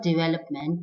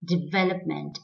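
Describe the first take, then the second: First: Development with w for v, di-WEL-up-ment; wrong W sound. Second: Development as di-VEL-up-ment; correct V sound. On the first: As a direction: round the lips for the v in development. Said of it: "Not development". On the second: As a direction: clear toothy v in development. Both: Shown as a demonstration.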